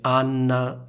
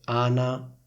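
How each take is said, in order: First: The n sound in the middle is held long. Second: The n sound in the middle is short. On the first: "Anna con due N" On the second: "Ana con una N sola"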